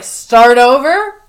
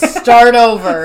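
First: "Start over?" louder and slow, rising at the end; questioning echo. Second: Louder, drawn-out mock order; half-yell it as a slow command. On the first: Retold or imitated. Worker echoing the boss's order, questioning "Start over?" with rising end. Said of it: "And Daryl's just like". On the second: Boss ordering a worker to redo it, mock yell. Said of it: "goes down to yell at Derek".

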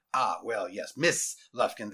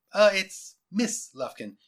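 First: Principal conceding. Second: Higher, slow, polite interruption on "Miss Lufkin"; smiling correction. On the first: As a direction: lower man's voice accepting "Miss Lufkin". Principal accepts the correction. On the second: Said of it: "she interrupted with a smile". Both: A narrator's reading.

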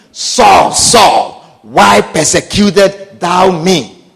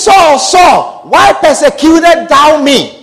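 First: Deep, slow voice of God calling. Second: Booming call. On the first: Preacher voicing God calling down to Saul, deep and slow. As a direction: call Saul low and grave. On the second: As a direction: call out Saul with force. God's voice retold louder. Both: Acted.

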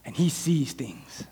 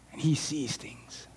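First: Soft and slow, dropping the voice; quiet. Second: Soft, slow whisper. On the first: Preacher telling the congregation about Elisha, quiet and slow. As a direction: let it sink in low and slow. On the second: Preacher confiding about his friend Regal, whispered. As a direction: breathe it like a secret. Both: Shown as a demonstration.

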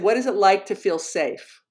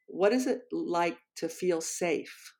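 First: Said in the usual way. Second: Soft, slow imitation of a shy student; very quiet voice. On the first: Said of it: "He said". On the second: Seventh grader quietly shares his question in class, very quiet voice. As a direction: say it slowly and very softly, as if barely audible. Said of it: "in this very, very quiet voice".

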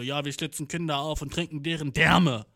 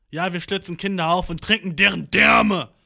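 First: Said in the usual way. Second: Louder, scarier metal singer voice; mock metal growl. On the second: Shown as a demonstration. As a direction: sound as creepy as possible. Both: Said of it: "so gruselig rüberkommen wie möglich".

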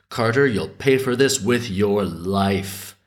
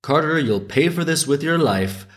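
First: Said in the usual way. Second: Mildly raised, higher sparrow's cry; yelled bird call. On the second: A narrator's reading. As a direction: call it out like a small bird scolding. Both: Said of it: "yelled out".

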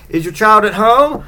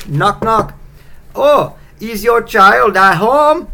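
First: Higher-pitched mock Icelandic accent, rising on home; quicker second stab at a bad Icelandic accent; fake Icelandic accent. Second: High, loud, drawn-out mock Icelandic accent; slow, hammed-up fake Icelandic accent, pitched up; terrible Icelandic accent. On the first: Yule lad asks at the window, fake Icelandic accent. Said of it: "whatever the island, Iceland accent is". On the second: Knocking Yule lad asks for your child, bad Icelandic accent. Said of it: "if that's an Iceland accent. That was terrible".

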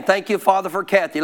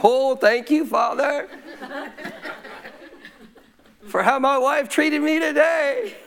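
First: Said in the usual way. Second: High, drawn-out hammed-up gratitude; mock thankful prayer. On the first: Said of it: "without saying". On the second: Husband thanking God for how his wife treated him, mock-grateful. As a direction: overdo the thanks in a high put-on voice. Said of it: "My flesh wasn't saying".

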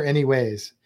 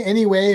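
First: "anyways" said with a final s. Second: "anyway" said with no final s. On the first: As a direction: say "anyways", ending on a z sound. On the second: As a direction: say "anyway", ending on the y sound. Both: Shown as a demonstration. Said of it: "Do you guys say".

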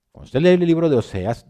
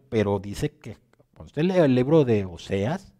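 First: Raised, higher, emphatic repeat; louder repeat. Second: Said in the usual way. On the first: Acted. Preacher repeats to the congregation, louder and higher. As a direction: hammer the line home a second time, louder.

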